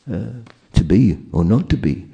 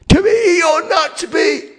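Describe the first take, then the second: First: The phrase is spoken softly and inwardly. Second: The phrase is shouted loudly. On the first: The speaker calls it right. "it's an introspective to be or not to be" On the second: The speaker calls it wrong. "he can't shout"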